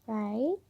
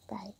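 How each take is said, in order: First: "Right" with a sharp rise; soft, upturned "Right" seeking confirmation; questioning. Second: Said in the usual way. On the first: Real, not acted. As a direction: ask "Right" as an unsure check. Asks herself, then answers.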